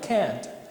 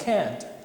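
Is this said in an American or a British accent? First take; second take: American; American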